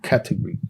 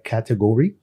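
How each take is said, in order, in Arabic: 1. تُنطق بلهجة بريطانية. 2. تُنطق بلهجة أمريكية. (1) "في البريتش هتلاقي مختلف" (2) "النطق الامريكان بتاعها"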